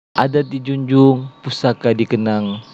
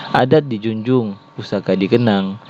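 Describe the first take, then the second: No difference in how they are said.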